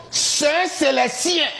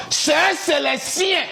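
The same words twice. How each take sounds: The two takes are said the same way.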